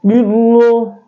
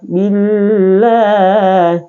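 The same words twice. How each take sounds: First: The L is heavy and thick. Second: The L is light and thin. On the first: The speaker calls it wrong. "Tidak boleh billah, billah, tidak boleh begitu" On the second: The speaker calls it right. "dibaca tarkik atau tipis"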